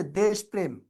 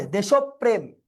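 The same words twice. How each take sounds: First: Said in the usual way. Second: দেশপ্রেম said "de-shop-prem"; doubled-প দেশপ্রেম. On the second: Shown as a demonstration. Teacher answering how it should sound, emphatic "deshop-prem" for দেশপ্রেম. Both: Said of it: "এটা কি হবে".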